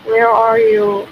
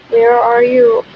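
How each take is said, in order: Both takes have the same delivery.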